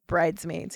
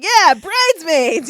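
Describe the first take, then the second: First: Said in the usual way. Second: High, loud, drawn-out mock cheer; light bulb suddenly goes on, hammed up; mock excited realization. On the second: Retelling his delight at the bridesmaids idea, excited. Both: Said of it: "like the light went off on him".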